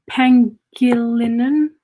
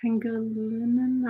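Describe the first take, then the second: First: Slow, questioning "Pangilinan", drawn out with a rise; "Pangilinan" tried slowly, ending upward; unsure name attempt. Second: "Pangilinan" said softly and doubtfully; a soft, tentative "Pangilinan"; unsure second attempt. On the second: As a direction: try "Pangilinan" much more quietly, unsure. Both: Real, not acted. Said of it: "I don't know".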